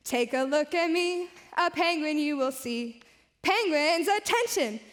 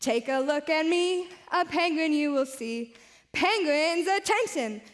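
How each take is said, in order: Both takes have the same delivery.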